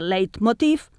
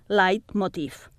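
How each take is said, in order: First: The first syllable has an open e vowel. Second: The first syllable has an ai diphthong. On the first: The word is read in a local way. "amb B oberta" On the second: The word is read as in its source language. "com en alemany, ... amb A"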